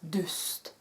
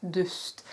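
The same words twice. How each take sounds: Both takes have the same delivery.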